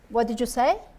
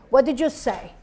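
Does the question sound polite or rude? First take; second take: polite; rude. First: The question sounds polite and friendly. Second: The question sounds rude and aggressive. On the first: The speaker calls it right. "Instead of" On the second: The speaker calls it wrong. "made her sound rude"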